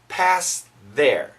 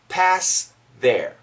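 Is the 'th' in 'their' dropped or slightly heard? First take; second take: slightly heard; slightly heard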